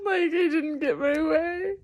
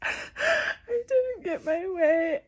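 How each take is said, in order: First: High, half-laughing cry on didn't get my way; giggling at her own tantrum while teary; a laugh cracking into tears; laughing through tears. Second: Slow, high crying wail on didn't get my way. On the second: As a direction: let the tears take the words, drawn out. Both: Real, not acted. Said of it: "I'm little [name] and just throwing a tantrum".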